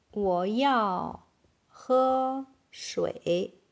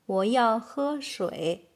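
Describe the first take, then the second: First: Very slow, stretched syllables; word by word. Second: Said in the usual way. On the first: Shown as a demonstration. Teacher modelling "I need to drink water", very slowly. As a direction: draw each word out for learners.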